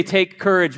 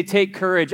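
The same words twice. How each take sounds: First: The answer you want the church to shout; congregation response. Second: Said in the usual way. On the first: Shown as a demonstration. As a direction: call it back as a group reply. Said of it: "I need you to say". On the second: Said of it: "whenever you hear me say".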